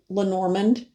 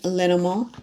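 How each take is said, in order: First: The name is said the common local way. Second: The name is said the original way. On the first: The speaker calls it wrong. "in this country, you will hear Lenormand" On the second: The speaker calls it right. "but it's actually Lenormand"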